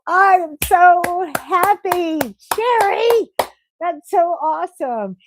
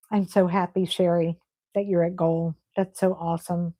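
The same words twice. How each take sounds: First: High, slow, thrilled cheer; excited. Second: Softer, lower, close to tears, ending in a whisper; choked up. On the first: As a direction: gush with joy for her news. Cheering a viewer who reached goal. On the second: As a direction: hold back tears as you say it. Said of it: "I'm gonna cry 'cause I get so excited". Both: Real, not acted.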